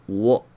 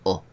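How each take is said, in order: First: A w sound comes before the vowel. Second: The vowel is said with no w sound. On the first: The speaker calls it wrong. "No hay wo. Esto no lo hay" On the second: The speaker calls it right. "vais a leerlo siempre así"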